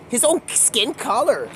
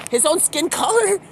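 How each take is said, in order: First: Said in the usual way. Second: High incredulous repeat. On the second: Retold or imitated. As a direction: pitch jumps up in disbelief. Repeated, pitched up.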